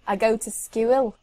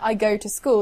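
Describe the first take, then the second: First: School has a Liverpool ew vowel, like skewil. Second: School has a plain, pure oo vowel. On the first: "they say I go to skewil" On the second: "instead of saying"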